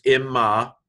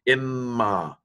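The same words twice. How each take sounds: First: Said in the usual way. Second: "Imma" with the M held longer. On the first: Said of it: "but this is imma". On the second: Shown as a demonstration. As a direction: linger on the doubled M in "Imma". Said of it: "hold the M a little bit longer".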